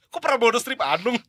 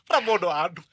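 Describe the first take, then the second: First: "Pramono Strip Anung" as a rising question; mock-baffled rise on "Pramono Strip Anung"; puzzled query. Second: Said in the usual way. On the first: Mock query of the misread name.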